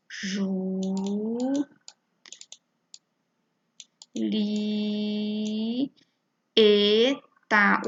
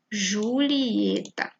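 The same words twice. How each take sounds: First: Ju, li, e, tá, each alone with long pauses, Ju and li held; split into syllables. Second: Julieta drawn out slowly but joined up; slow whole word. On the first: Teacher showing pupils that i and e separate, split into syllables. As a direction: chant out Julieta syllable by syllable, stretching Ju and li. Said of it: "O i e o e ficam separados". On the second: Teacher presenting the example word Julieta, slow whole word. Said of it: "Tem aqui Julieta". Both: Shown as a demonstration.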